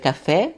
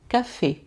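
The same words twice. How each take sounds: First: The word is said with Portuguese pronunciation. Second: The word is said with French pronunciation. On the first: "Em português a gente vai ler café" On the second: "Mas em francês, ... vai ter sempre o som de E"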